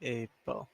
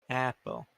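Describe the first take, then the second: First: "Apple" with a long A, like "ape-ul". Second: "Apple" with the short A of "cat"; "Apple" said the usual way, short first vowel. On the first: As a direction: start "Apple" with the vowel of "ape". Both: Shown as a demonstration. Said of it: "Is apple the short one?".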